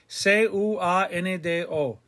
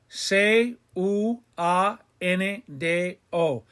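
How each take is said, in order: First: The letters are spelled out quickly and smoothly. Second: The letters are spelled out slowly and separately.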